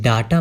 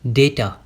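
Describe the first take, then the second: First: The first vowel is an 'ah' sound. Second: The first vowel is an 'ay' sound. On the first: The speaker calls it wrong. "इसे डाटा मत समझना आप" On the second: The speaker calls it right. "इसकी pronunciation क्या होगी? डेटा"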